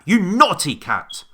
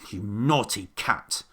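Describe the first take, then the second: First: It is shouted loudly. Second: It is grumbled in a moaning voice. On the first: "Or did he shout it at, at the cat?" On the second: "Or maybe he grumped it. ... He grumbled"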